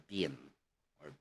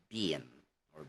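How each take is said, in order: No difference in how they are said.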